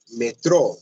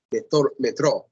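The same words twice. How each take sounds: First: Metrô with the stress on the final ô, metrÔ; stress on last syllable. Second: Metrô, metrô, each with a closed, stressed final ô; stress on last syllable. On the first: Teacher modelling the stressed last syllable of Metrô. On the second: Teacher drilling students on metrô's final stress. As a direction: repeat metrô stressing the end. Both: Shown as a demonstration. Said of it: "deve fazer a força da pronúncia aí nessa última sílaba".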